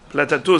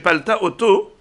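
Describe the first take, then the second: First: It is run together into one contracted word. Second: It is said as two separate words. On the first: "c'est la contraction" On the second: "je le dis en deux mots, comme ça c'est plus facile"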